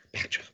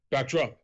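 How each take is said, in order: First: Hushed, voiceless move call; mock whisper. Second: Mildly called-out move name; mock shout. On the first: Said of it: "whispering in their ear". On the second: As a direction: call the move, only half shouting. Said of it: "practically shout out what the next".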